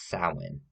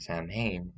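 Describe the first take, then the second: First: Samhain said "SAH-win", falling; Samhain as "sah-win", smug and sure; correct pronunciation. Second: Samhain as written, "sam-hane"; wrong pronunciation. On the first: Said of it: "it's Samhain". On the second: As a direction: spell out Samhain, SAM-hain. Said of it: "It's not Samhain". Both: Shown as a demonstration.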